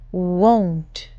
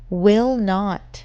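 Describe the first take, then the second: First: The words are merged into one short word. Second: Both words are said fully and separately.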